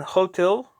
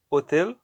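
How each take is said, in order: First: "hotel" drawn out with a sounded H, stress on TEL; slow "hotel", H heard, ending stressed; stress on last syllable. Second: "hotel" as o-TEL, silent H; quick Spanish "hotel", no H, TEL stressed; stress on last syllable. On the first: Teacher giving an example, last syllable stressed. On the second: Teacher giving a Spanish example, last syllable stressed. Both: Shown as a demonstration. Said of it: "the last syllable is stressed".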